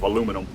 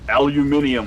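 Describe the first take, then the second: First: It is said the American way, four syllables. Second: It is said the British way, five syllables.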